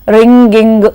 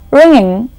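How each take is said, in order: First: A hard g follows the ng sound. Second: The ng has no hard g after it.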